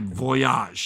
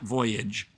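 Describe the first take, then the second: First: The name is said with French pronunciation. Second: The name is said with English pronunciation. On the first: The speaker calls it right. "Voyage was a French disco group" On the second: The speaker calls it wrong. "not Voyage"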